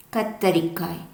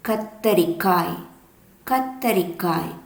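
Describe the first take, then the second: First: Said in the usual way. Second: கத்தரிக்காய் drawn out slowly, syllable by syllable; slow naming. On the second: Shown as a demonstration. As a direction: stretch கத்தரிக்காய் out for the kids. (கத்தரிக்காய் மெதுவாக நீட்டி) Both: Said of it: "இது".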